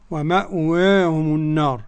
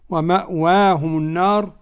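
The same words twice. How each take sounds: First: The long vowel is a fully open a. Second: The long vowel is halfway between a and i. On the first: "والفتح" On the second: "التقليل"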